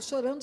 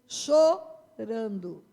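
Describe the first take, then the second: First: Said in the usual way. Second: Chorando stretched very slow and falling; drawn-out stress. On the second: Shown as a demonstration. Preacher stretching chorando so the church feels the weeping. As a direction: draw out chorando slowly to make it last. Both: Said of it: "Diga chorando".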